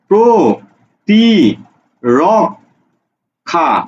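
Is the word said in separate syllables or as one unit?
separate syllables. Each syllable is said separately with breaks.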